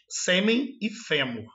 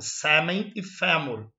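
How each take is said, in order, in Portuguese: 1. As vogais tônicas são fechadas. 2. As vogais tônicas são mais abertas. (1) "Aqui no Brasil nós falamos" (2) "Lá eles falam mais aberto"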